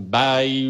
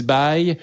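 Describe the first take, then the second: First: Slow, drawn-out awkward bye; mock awkward goodbye. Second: Said in the usual way. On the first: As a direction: stretch out BYE like a fumbled farewell. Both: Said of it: "si c'est awkward pour une raison".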